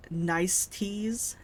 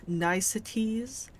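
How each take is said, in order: First: "niceties" sounded out slowly, rising; slow careful word. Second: "niceties" said slowly as NICE-uh-tees, rising; corrected word. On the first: Gamer stumbling over a word, sounding it out slowly. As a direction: spell out "niceties" slowly, NICE-tees. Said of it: "ni-, nis". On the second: Gamer retrying a hard word, slow and careful. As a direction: try "niceties" again, slow, three syllables. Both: Shown as a demonstration.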